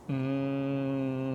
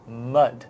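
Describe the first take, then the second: First: Each sound is stretched out, one into the next. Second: The whole word is said quickly at once.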